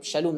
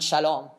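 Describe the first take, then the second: First: Shalom said as sha-LOOM, long OO; correct pronunciation. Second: Shalom said as sha-LAHM, open AH; wrong pronunciation. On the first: Teacher corrects the name for listeners, pronounced sha-LOOM. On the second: Teacher shows the name it is not, pronounced sha-LAHM. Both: Shown as a demonstration. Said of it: "not Shalom".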